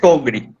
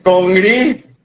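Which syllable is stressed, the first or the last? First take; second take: first; last. First: The stress is on the first syllable. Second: The stress is on the last syllable. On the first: The speaker calls it wrong. "no se dice congri" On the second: The speaker calls it right. "El acento está en la I"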